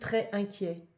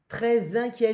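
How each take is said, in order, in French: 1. Aucun son z ne lie très à inquiet. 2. Un son z lie très à inquiet. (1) "j'ai pas dit très inquiet" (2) "j'ai fait la liaison là entre le, avec le S"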